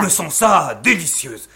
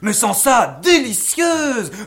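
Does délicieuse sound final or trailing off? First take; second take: final; trailing off. First: Délicieuse ends with a closed, final intonation. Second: Délicieuse is left suspended, trailing off.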